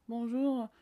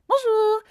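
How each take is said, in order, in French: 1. Cela se dit d'une voix plate et monotone. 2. Cela se dit d'une voix vive et énergique. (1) "Est-ce que ça vous donne envie de vous abonner sans déconner?" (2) "Voilà, ça vous donne"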